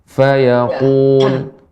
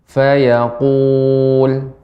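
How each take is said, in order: The two takes are said the same way.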